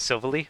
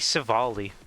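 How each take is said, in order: First: The middle does not sound like 'all'. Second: The middle sounds like the word 'all'. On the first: The speaker calls it wrong. "I used to pronounce it as Silvally" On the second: The speaker calls it right. "it's meant to be Silvally, because it has all types"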